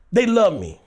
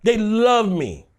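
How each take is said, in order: First: Said in the usual way. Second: "love" stretched out slowly; emphatic repeat with a drawn-out "love"; stress on love. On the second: Real, not acted. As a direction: lean long and hard on "love".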